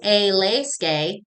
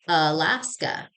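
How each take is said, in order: First: Every syllable gets an equal, full, robotic beat. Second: The unstressed vowels are reduced to quick schwas. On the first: The speaker calls it wrong. "We don't say Alaska" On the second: The speaker calls it right. "We say Alaska"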